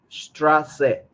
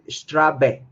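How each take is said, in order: First: The middle consonant is an s sound. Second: The middle consonant is a b sound. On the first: The speaker calls it right. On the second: The speaker calls it wrong.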